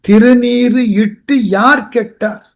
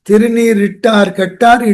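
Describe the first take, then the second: First: It is said slowly, with each word separate. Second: It is said fast, with the words merged. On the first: No one who wears the holy ash is ruined. The speaker calls it right. "அப்படி இல்லை பொருள்" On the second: Those who wear the holy ash are ruined. The speaker calls it wrong. "அதை வேகமா சொல்லும் போது பொருள் எதிர்மறையா போயிடும்"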